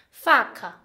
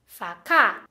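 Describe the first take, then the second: First: "Faca" with stress on FA, falling away on "ca"; stress on first syllable. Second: "facá" with the stress moved onto "cá"; stress on last syllable. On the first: Teacher contrasting word intonation, stress on first syllable. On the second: Teacher contrasting word intonation, stress on last syllable. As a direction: punch the final syllable of "facá", dropping in tone. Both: Shown as a demonstration. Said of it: "atenção na entonação como a pessoa fala".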